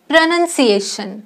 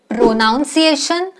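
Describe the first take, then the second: First: The second syllable sounds like 'nun'. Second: The second syllable sounds like 'noun'. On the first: The speaker calls it right. "It's प्रनन्सिएशन" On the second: The speaker calls it wrong. "No"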